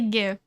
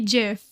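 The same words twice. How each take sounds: First: The word begins with a hard G sound. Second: The word begins with a soft J sound. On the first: The speaker calls it wrong. "I don't like the hard G sound" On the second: The speaker calls it right. "I say GIF"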